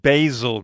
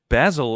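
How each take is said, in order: First: It is said in an American accent. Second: It is said in a British accent.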